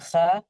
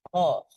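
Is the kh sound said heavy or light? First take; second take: light; heavy. First: The kh sound is light, with a bright vowel. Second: The kh sound is heavy, with a dark vowel. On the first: The speaker calls it wrong. "Bukan kha" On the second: The speaker calls it right. "Kho-nya dibaca tebal"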